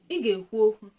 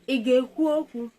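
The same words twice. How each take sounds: First: It is said with a level mid tone. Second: It is said with a raised high tone. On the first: It states that you will talk. "Normal sentence, mid tone" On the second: It asks whether you will talk. "question, high tone"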